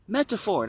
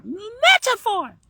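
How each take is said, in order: First: Put-on high kid voice, said quickly. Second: METAPHOR stretched out, very high and loud; kid voice, drawn out. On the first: Kid naming what "like" is, high child voice. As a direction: METAPHOR in a raised child's voice. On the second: Acted. Kid hammering home the word, long loud high squeal. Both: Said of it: "you just did it in the kid voice".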